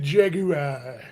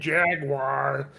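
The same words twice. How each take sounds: First: The word is said with a British pronunciation. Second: The word is said with an American pronunciation. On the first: The speaker is cultured. "the Brits, they pronounce it Jaguar" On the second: The speaker is uncultured. "like the damn Yanks"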